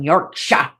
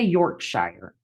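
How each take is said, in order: First: Yorkshire is said with a British pronunciation. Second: Yorkshire is said with an American pronunciation.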